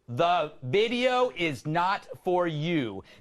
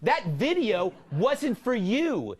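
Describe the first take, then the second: First: It is said slowly. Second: It is said at normal speed.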